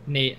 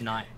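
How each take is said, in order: First: The name is said with a neutral accent. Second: The name is said with an Australian accent. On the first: The speaker calls it right. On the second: The speaker calls it wrong.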